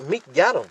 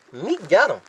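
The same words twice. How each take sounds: The two takes are said the same way.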